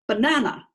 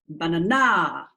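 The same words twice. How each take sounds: First: The stress is on the second syllable. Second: The stress is on the third syllable. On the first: The speaker calls it right. "let's make it syllable two" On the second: The speaker calls it wrong. "Syllable three, just for fun"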